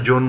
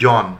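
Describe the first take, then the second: First: জন said as "jon"; closed "o" in জন; rejected close o. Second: জন said as "jɔn"; open vowel. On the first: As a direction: say জন with a rounded o, "john" with a long o. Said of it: "এখানে জন বলছি না". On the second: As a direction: say জন with an open aw, "jawn". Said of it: "যেমন আমরা বলি". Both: Shown as a demonstration.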